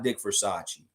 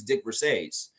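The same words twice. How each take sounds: First: Versace said ver-SAH-chee, like the fashion brand; wrong pronunciation. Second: Versace said as ver-SACE, two syllables rhyming with face; correct pronunciation. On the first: Host rejecting the popular version of the coach's name, mispronounced. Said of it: "He's not Dick Versace". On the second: Host giving the coach's own way of saying it, correctly pronounced. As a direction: say Versace with no chee at the end. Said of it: "He takes his name". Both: Shown as a demonstration.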